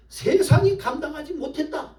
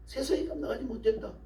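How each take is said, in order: First: High-pitched preaching declaration; emphatic proclamation. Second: High, much softer echo; hushed repetition. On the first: Emphatic sermon declaration, then repeated. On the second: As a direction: drop the volume right down, keeping the pitch up. Hushed repeat of the declaration. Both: Real, not acted.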